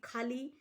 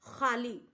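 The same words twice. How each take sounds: First: खाली with a plain breathy kh, like Hindi kh; खाली, plain Hindi kh sound; plain aspirated kh. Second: खाली with a rough kh scraped from the throat; खाली, guttural kh like the Urdu letter khe; throaty kh. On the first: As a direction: say खाली with a simple aspirated k, no throat scrape. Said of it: "अगर हम दूसरा खाली बोलें". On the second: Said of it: "हमारा simple खा है". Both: Shown as a demonstration.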